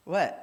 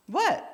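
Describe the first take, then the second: First: Said in the usual way. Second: What? jumping much higher with a rise; prodding what. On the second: Retold or imitated. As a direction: push her to finish the sentence, pitched up high. Repeats the question, prodding.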